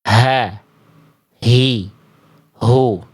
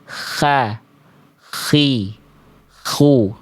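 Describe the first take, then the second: First: The h comes from deep in the throat. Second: The h comes out as a raspy kh sound. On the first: "Kalau H kecil dilafalkan terlalu ke bawah, terlalu ke pangkal" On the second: "terlalu ke ujung atau terlalu keluar"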